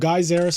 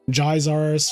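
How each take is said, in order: First: The name starts like the word 'geyser'. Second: The name starts like the word 'gyro'. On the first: "because like Geyser" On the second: "like gyro"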